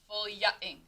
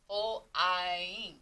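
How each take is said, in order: First: The y is sounded as 'ya'. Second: The y is sounded as a long i. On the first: The speaker calls it wrong. "if you were to try to say it with the ya" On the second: The speaker calls it right. "that long I sound"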